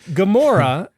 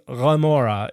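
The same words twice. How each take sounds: First: The word begins with a hard g sound. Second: The word begins with a guttural, not a g. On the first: The speaker calls it wrong. "Just like Gomorrah is actually" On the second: The speaker calls it right. "It is an I and it's not a G"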